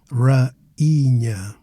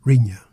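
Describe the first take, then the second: First: "rainha" as ra, pause, EE-nya; separate syllable I. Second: "rainha" with a and i run together, two syllables; no break before the nh in "rainha"; wrong merged vowels. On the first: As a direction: give the i in "rainha" its own stressed syllable. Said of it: "the I becomes its own syllable". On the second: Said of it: "instead of rainha". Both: Shown as a demonstration.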